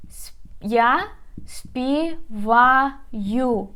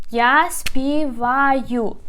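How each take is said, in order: First: Я співаю said very slowly, syllable by syllable; slow model pronunciation. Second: Я співаю said slowly with stress on Я; model pronunciation. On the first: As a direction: stretch я співаю out slowly for learners. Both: Shown as a demonstration. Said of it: "So, співати".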